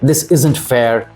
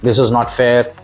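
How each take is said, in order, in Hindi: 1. 'is not' शब्द आपस में जुड़कर संक्षिप्त रूप में बोले जाते हैं। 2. 'is not' शब्द पूरे बोले जाते हैं।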